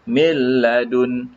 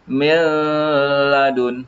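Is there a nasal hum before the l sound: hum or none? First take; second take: none; hum. First: The n merges fully into a doubled l. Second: The n is held with a nasal hum. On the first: The speaker calls it right. "seolah-olah kita sebut mi dengan satu lam mati dan satu lam berbaris" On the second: The speaker calls it wrong. "dengungkan ke, eh, tak perlu nak sebut milladun"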